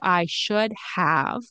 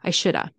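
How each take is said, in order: First: The word 'have' is pronounced in full. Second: The word 'have' is reduced to 'a'. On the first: "instead of I should have" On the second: "which turns into I shoulda"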